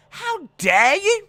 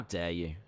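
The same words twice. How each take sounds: First: High, loud, slow how dare you; mock outraged shriek. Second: Low, soft, indignant how dare you; mock offended. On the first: Defending Thug Rose, hammed-up high outraged cry. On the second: Defending Thug Rose, low mock indignation. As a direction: play the wounded pride.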